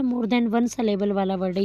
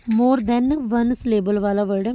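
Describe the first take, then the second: First: Said in the usual way. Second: "more than one syllable" said slowly and firmly; teacher hammering home "more than one syllable", slowly; emphatic repetition. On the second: Shown as a demonstration. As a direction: drill "more than one syllable" with slow, deliberate weight. Repeats the answer to drill it.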